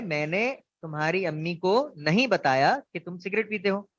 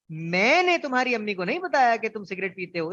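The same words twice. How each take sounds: First: Said in the usual way. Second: मैंने punched, rest of the line left loose; stress on मैंने. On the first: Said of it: "जुमला है". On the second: Shown as a demonstration. Teacher showing the class a stress on मैंने. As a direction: lean hard on मैंने, then relax. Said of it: "अब अगर इस पे मैं जोर दूं फर्स्ट लेटर पे".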